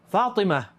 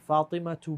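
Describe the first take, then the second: First: The name ends without the 'tu' syllable. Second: The name ends with a pronounced 'tu' syllable. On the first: The speaker stops after the name. "If you stop, Fatima, you call her Fatima. You stop like that" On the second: The sentence continues after the name. "See how I didn't stop? That's how it's supposed to be"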